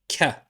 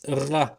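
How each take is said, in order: First: It starts with a plain k sound. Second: It starts with a gargled French r sound. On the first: "like the letter K" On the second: "like the ghain ... the French R"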